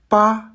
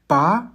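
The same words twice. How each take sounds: First: The syllable is said with the first tone. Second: The syllable is said with the second tone. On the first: "Premier ton" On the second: "Deuxième ton"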